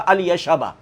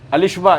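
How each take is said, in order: First: The name is said as Al Yashba, with ya. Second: The name is said as one word, Alishba. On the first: The speaker calls it right. "जिनका नाम था अल यशबा" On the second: The speaker calls it wrong. "अलिशबा ये नाम नहीं है"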